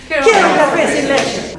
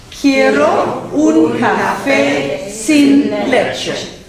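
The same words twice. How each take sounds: First: High, rapid-fire drill line; even faster. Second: Very slow, loud-edged teacher's model, each word separated. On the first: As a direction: race through it without a gap. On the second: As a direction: draw out every word for learners to copy. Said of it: "we say it word by word". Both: Shown as a demonstration.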